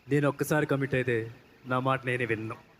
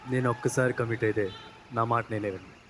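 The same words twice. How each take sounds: First: It is said forcefully with energy. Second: It is said softly and slowly.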